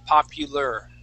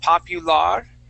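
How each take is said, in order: First: The last syllable ends with an 'er' sound. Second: The last syllable ends with an 'ar' sound. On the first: The speaker calls it right. "pronounce that like an E R" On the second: The speaker calls it wrong. "pronouncing that A R here"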